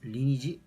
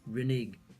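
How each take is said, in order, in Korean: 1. 마지막 자음은 J 소리입니다. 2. 마지막 자음은 hard G 소리입니다. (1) "리니지? 이렇게 읽는 건가?" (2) "G 발음이 J로 나는 것이 아니라 G로 나게 됩니다"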